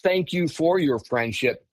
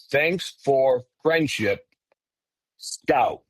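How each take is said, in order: First: Said in the usual way. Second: Slow, halting words with gaps between; broken speech. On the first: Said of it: "It was broken a little bit. Not". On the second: Retold or imitated. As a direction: say it slowly, word by separate word. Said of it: "It was broken a little bit".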